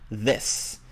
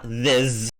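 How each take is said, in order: First: The word ends with a hissing s sound. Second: The word ends with a buzzing z sound. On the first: The speaker calls it right. "whereas this has an S sound" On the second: The speaker calls it wrong. "So not this"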